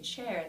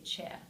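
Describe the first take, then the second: First: The final R is clearly pronounced. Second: The R is dropped and ends in schwa.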